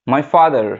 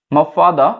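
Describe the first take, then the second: First: 'my father' with the final r sounded; American 'father', said FAH-der; American pronunciation. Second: 'my father' with no r at the end; British 'father', said FAH-duh; British pronunciation. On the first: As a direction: pronounce the r ending 'father'. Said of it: "American বললে". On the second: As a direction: drop the final r of 'father'. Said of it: "British বললে". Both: Shown as a demonstration.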